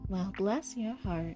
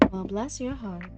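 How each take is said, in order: First: It is said in a slow, drawn-out drawl. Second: It is said at a quicker, ordinary pace.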